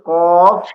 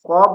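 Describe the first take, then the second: First: The word ends with an f sound. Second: The word ends with a b sound. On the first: The speaker calls it right. "উচ্চারণটা হবে কফ" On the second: The speaker calls it wrong. "কব নয়"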